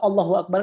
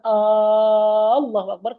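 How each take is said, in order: First: The opening vowel of Allah is short. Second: The opening vowel of Allah is drawn out. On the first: It states that God is the greatest. The speaker calls it right. "kan Allah Maha Besar" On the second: It asks whether God is the greatest. The speaker calls it wrong. "ketika kita panjangkan Allahu Akbar kayak seolah kita tanya"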